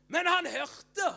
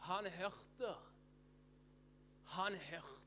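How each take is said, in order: First: High, loud burst; emphatic proclamation. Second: Much softer, with long pauses; hushed repetition. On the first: Preacher telling congregation that Bartimeus heard, loud proclamation. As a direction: proclaim it at full voice. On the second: Preacher letting congregation absorb that he heard, hushed. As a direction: drop right down and let it sink in. Same words repeated hushed after climax. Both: Real, not acted.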